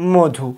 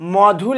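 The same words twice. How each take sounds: First: The first vowel is a closed 'o' sound. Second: The first vowel is an open 'aw' sound. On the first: This is how the word is actually pronounced. "আমরা উচ্চারণ করি মধু" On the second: This is how the word is written. "লেখছি আমরা কি মধু"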